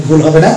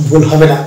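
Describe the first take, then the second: No difference in how they are said.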